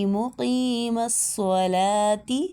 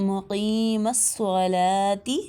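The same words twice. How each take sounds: No difference in how they are said.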